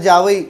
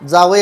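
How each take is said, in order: First: The first consonant is forced into a y-coloured sound. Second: The first consonant sounds plain and natural. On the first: The speaker calls it wrong. "ते ओढून ताडून जाते" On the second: The speaker calls it right. "जावई आले असंच बोलतो"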